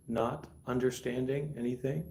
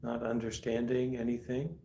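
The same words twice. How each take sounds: The two takes are said the same way.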